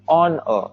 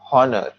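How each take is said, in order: First: The word begins with a vowel, H silent. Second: The word begins with an audible H sound. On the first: The speaker calls it right. "the H is silent, so it, it won't be heard. We say honor" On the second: The speaker calls it wrong. "not honor"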